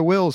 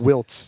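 First: The name ends in an ls sound, no t. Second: The name has a t before the final s. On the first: The speaker calls it right. "You nailed it like a professional" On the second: The speaker calls it wrong. "A lot of people like to throw T in there"

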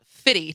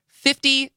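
First: It is said without the middle f sound. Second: It is said clearly with the middle f sound. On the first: The speaker calls it wrong. "He's not fitty to you" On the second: The speaker calls it right. "should always clearly pronounce 50 Cent"

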